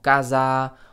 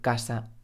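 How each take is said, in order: First: The s is said with a buzzing voiced sound. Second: The s is said with a hissing voiceless sound. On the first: This is how some foreign learners say it. The speaker calls it wrong. "Los estudiantes extranjeros dicen cosas como casa" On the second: This is how it is always said in Spanish. The speaker calls it right. "en español, siempre vamos a decir casa"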